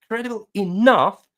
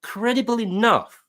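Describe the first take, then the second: First: "enough" punched louder with a falling tune; firm fall landing on "enough"; stress on enough. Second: "credible" drawn out slow, leaning on it; slow, weighted "credible" with a falling tune; stress on credible. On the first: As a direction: hit the word "enough" hard. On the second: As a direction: linger sarcastically on "credible". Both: Shown as a demonstration.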